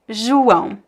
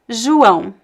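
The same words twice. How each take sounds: First: The first vowel sounds like 'u'. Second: The same.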